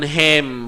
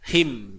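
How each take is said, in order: First: The vowel sounds like an open 'e'. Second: The vowel sounds like a close 'i'. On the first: The speaker calls it wrong. "jangan hem" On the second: The speaker calls it right. "H I M him"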